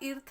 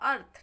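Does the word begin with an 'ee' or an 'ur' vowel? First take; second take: ee; ur. First: The word begins with an 'ee' vowel. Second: The word begins with an 'ur' vowel. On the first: The speaker calls it wrong. "इसको हम इर्थ नहीं पढ़ेंगे" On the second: The speaker calls it right. "ए से शुरू करते हैं इसका पढ़ाना"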